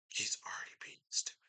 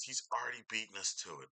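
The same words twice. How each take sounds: First: Hushed, fast whispered repeat. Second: Said in the usual way. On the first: Acted. Repeating the rival's brag to himself in a whisper. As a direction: breathe the line out as a quick secret.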